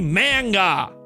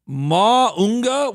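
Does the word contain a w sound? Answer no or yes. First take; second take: no; yes. First: The word has plain vowels and no w sound. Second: The word has extra vowels and a w sound. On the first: The speaker calls it right. "it should be manga" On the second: The speaker calls it wrong. "Where are these extra vowels coming from? And where's the W?"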